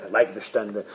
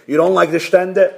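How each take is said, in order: First: Low, soft, matter-of-fact reply; rabbi's dismissive answer. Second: Puzzled question at usual pitch; board questioning. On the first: Rabbi answers the board, low and unbothered. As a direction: drop low and answer quietly. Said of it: "He says". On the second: Board asks the resigning rabbi, probing question. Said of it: "So the board calls him in". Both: Acted.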